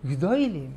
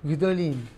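First: גדולים said as gdoylim, Ashkenazi oy vowel; Ashkenazi accent. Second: Said in the usual way. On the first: Shown as a demonstration. Rabbi contrasting Israeli and Ashkenazi speech, Ashkenazi accent. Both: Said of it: "מי שמדבר במבטא אשכנזי".

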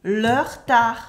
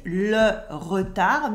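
First: "le retard" run together as "leur-tar"; dropped French E. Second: "Le retard" with every E pronounced; full French schwa. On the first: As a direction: cut the E of "re" in "le retard". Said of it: "When we remove the E". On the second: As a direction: say "Le retard" slowly, E in "re" fully sounded. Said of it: "Le retard becomes le retard". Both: Shown as a demonstration.

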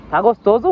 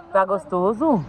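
First: Excited coaxing. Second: Said in the usual way. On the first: Real, not acted. Mother coaxing her son about the ice cream, loud and eager.

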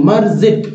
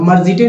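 First: मर्जिट closed on a plain 't', no vowel after it; two syllables in मर्जिट, ending on the consonant; correct ending. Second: मर्जिटे with an extra vowel after the final 't'; added 'e' at the end of मर्जिटे; misread ending. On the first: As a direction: say मर्जिट as 'mar-zit', stopping on the 't'. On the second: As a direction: say मर्जिटे as the mistaken reading, ending 'tay'. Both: Shown as a demonstration. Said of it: "अब मर्जिटे नहीं पढ़ेंगे".

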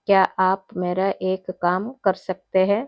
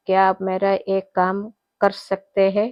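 The two takes are said the same way.

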